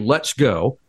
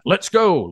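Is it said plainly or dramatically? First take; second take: plainly; dramatically. First: It is read out plainly, without drama. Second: It is said in a dramatic, heightened way.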